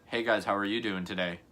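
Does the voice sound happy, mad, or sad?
mad. The voice sounds mad and annoyed.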